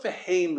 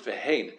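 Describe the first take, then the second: First: Veheim ending on M instead of N; final M sound. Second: Vehein ending on a clear N; final N sound. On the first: Teacher giving the word not used, veheim ending in M. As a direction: close the lips on the last sound of veheim. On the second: Teacher contrasting two Hebrew words, vehein ending in N. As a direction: say vehein with a nun at the end. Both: Shown as a demonstration. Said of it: "Hein with a nun".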